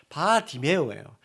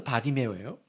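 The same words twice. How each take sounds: First: "바디메오" slowly, with "바" set apart; split-syllable emphasis. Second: Said in the usual way. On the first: Shown as a demonstration. Preacher explaining the name's meaning, "바" set apart in "바디메오". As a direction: separate "바" from "디메오", drawn out.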